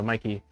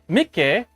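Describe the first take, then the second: First: The name is said with an English-sounding pronunciation. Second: The name is said with a Swedish-sounding pronunciation. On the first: The speaker calls it wrong. "That doesn't sound Swedish to me though" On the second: The speaker calls it right. "That sounds like Swedish"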